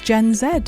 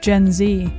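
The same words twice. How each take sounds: First: The letter is said the British way, 'zed'. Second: The letter is said the American way, 'zee'.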